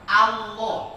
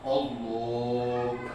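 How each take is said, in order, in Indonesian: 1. Vokal pertama terdengar seperti 'a'. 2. Vokal pertama terdengar seperti 'o'. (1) "Yang benar adalah Allah. A, A alifnya itu fathah" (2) "Banyak yang baca Allah. Padahal salah"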